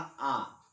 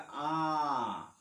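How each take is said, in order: First: आ held for two beats; long aa. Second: आ drawn out slowly over three beats; prolonged aa. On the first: Teacher shows the long vowel, held twice as long. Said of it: "फिर हमने कहा आ". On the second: Teacher shows the extra-long pluta vowel, drawn out. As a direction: draw आ out long and slow, three counts. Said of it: "तीनों में अंतर है". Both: Shown as a demonstration.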